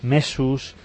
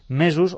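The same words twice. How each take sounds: First: The s between vowels is voiceless. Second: The s between vowels is voiced. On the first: The speaker calls it wrong. "ensordeix sistemàticament el so de la S" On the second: The speaker calls it right. "cal fer aquest so vibrant"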